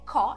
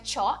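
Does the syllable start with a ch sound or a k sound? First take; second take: k; ch. First: The syllable starts with a k sound. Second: The syllable starts with a ch sound. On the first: The speaker calls it right. "é som de k" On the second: The speaker calls it wrong. "a pronúncia não é cho"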